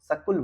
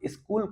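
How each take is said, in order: First: A vowel is inserted, giving sa-kul. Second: It begins with the cluster sk, no inserted vowel.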